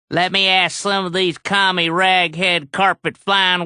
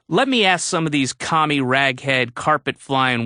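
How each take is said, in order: First: It is said in a put-on imitating voice. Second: It is said in the speaker's natural voice. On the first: Someone else's words are mimicked in their manner. "No, I won't do your voice" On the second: Someone else's words are read out plainly. "I'll do my voice"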